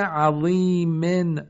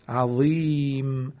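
First: عظیمن slow and higher, ending "-min"; tanween sounded. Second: عظیم slow, long "ii", closing on bare m; pausal sukun. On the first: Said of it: "آخرش تنوین". (عظیمن با تنوین کسره در آخر) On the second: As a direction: stop عظیم without the "in" ending. (عظیم کشیده با میم ساکن) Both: Shown as a demonstration.

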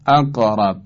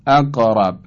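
First: اقرب with a short bounce on ق toward a; qalqala leaning to fatha. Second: اقرب with the ق bouncing toward an a sound; qalqala leaning to fatha. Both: Shown as a demonstration. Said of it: "قاف که قلقله داره".

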